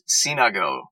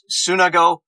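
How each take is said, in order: First: The first syllable sounds like 'sin'. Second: The first syllable sounds like 'sun'. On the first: This is the original Greek pronunciation. "The proper pronunciation is Sinago" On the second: This is how the brand is promoted. "he promotes it as Sunago, S-U-N"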